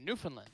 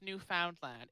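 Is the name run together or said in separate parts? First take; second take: run together; separate parts. First: The name is run together as one word. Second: The name is said in separate parts. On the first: The speaker calls it right. "it's run together" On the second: The speaker calls it wrong. "absolutely not pronounced"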